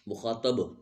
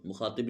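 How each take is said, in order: First: The vowel before the final b is 'a'. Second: The vowel before the final b is 'i'. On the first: The speaker calls it right. "तो अब फतह है, कसरा नहीं।" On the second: The speaker calls it wrong. "मुखातिब नहीं बोलना"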